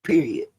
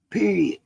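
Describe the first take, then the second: First: Said in the usual way. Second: "Period." set higher, with a firm fall; emphatic repeat. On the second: Real, not acted. Speaker rules child harm is wrong, emphatic.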